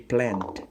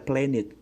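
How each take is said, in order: First: The ending is a single d, no extra syllable. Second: The ending is said as an extra syllable. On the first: The speaker calls it right. "tapi plant" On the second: The speaker calls it wrong. "jangan dibaca planet"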